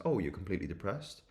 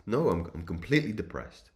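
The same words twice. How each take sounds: First: Completely depressed said as a rising question; questioning echo. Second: Completely depressed stated firmly with a falling end; insistent reply. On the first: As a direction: echo "completely depressed" back, lifting the end to query it. Lecturer questions the depressed client's claim. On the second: Client insists in retold exchange. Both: Retold or imitated.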